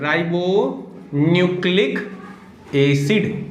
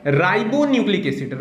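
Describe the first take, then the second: First: Stretched "ribonucleic", pause, then "acid"; slow dictation. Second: Said in the usual way. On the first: Shown as a demonstration. Teacher giving RNA's full form to students, slow dictation. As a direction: dictate "ribonucleic acid" slowly in separate pieces.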